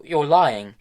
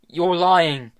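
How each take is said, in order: First: High, loud outburst; loud accusation. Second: High, loud repeated accusation; angry denial. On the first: Tom shouting at Hester that she lies, loud. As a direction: hurl it at her. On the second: Tom shouting again at Hester that she lies, loud. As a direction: throw it back at her louder. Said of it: "said Tom again". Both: A narrator's reading.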